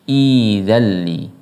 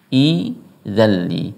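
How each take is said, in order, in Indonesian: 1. Kata ini dimulai baru dengan vokal i di awal. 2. Kata ini dimulai baru dengan vokal i di awal.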